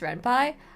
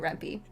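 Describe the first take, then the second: First: The last syllable sounds like 'pie'. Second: The last syllable sounds like 'pea'. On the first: It follows how Python is said. "technically it's Rampai" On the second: It is the speaker's own Spanish-style way. "I'm Spanish and I will call it Rampi"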